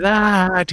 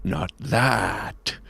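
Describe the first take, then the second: First: Higher, drawn-out call from far off; receding into the distance. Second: Low, soft and menacing; low villain reply. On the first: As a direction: call back as you walk away. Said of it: "he says as he gets farther and farther away". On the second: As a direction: dismiss her darkly under your breath. Villain answers while stalking off. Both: Acted.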